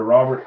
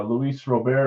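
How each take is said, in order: First: Robert said as English ROB-ert; alternate name pronunciation. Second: Robert said as Ro-BAIR, silent T; alternate name pronunciation. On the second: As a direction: say Robert the Spanish-style way, stressed at the end. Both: Shown as a demonstration. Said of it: "I'll just say it both ways".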